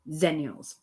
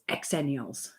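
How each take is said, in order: First: The word begins with a z sound. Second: The word begins with an eks sound. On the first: This is the American way of saying it. "Americans say z, z zennials" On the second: This is the UK way of saying it. "There's an X in there, so it's exennials"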